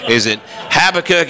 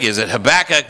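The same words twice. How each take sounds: First: Habakkuk with stress on HAB, ha-buh-kuk; first try at the name. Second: Habakkuk with stress on BAK, huh-BAK-uk; second try at the name. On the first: Preacher tries Habakkuk with the stress on HAB. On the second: Preacher tries Habakkuk again, stress on BAK. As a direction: say Habakkuk as huh-BAK-uk, middle syllable strong. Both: Shown as a demonstration. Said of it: "how do we pronounce that name?".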